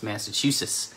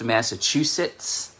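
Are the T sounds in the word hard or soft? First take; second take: soft; hard. First: The T sounds are pronounced soft. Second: The T sounds are pronounced hard and clear. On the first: The speaker calls it right. "the T's are soft T's" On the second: The speaker calls it wrong. "It's not pronounced Massachusetts"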